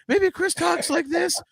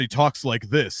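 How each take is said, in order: First: Very high, slow mock voice; co-host's normal voice. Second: Imitated blown voice, dropped into a dulcet tone; co-host's blown-out voice. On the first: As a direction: exaggerate the co-host's voice, high and drawn out. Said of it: "What does Chris sound like". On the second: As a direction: do the co-host with his voice gone, in mock dulcet tones. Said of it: "but then his voice gets blown".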